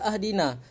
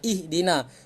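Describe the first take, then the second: First: The word begins with an a vowel. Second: The word begins with an i vowel. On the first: The speaker calls it wrong. "Kenapa tidak dibaca ahdina?" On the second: The speaker calls it right. "dibaca sebagai baris bawah"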